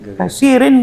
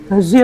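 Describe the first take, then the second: First: The final syllable rin is pronounced. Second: The final syllable rin is dropped. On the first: The speaker calls it wrong. "Bukan kasirin" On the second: The speaker calls it right. "Kasir aja kita sebut"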